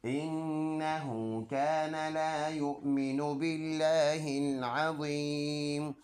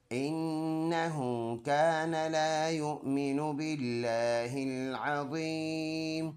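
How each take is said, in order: First: Melodic recitation with a slow, drawn-out Azeem; Quran recitation. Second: Melodic tajweed chant; Quran recitation. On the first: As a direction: chant the verse and stop on Azeem with a silent ज़ेर. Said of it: "full आयत ऐसे पढ़ेंगे". (पूरी आयत तिलावत में, अज़ीम पर रुककर) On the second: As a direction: recite the verse in a drawn-out tune. Recites the verse before spelling. (Quran की तिलावत के अंदाज़ में) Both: Shown as a demonstration.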